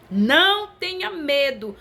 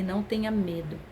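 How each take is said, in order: First: Raised, slow command with a strong NÃO; ringing "don't be afraid"; emphatic proclamation. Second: Low, soft relayed message; hushed "don't be afraid"; quiet reassurance. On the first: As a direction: proclaim it from the pulpit, high and drawn out. Same message proclaimed as God's word. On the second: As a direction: pass it on quietly, voice dropped. Relayed message from God, first take. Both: Retold or imitated.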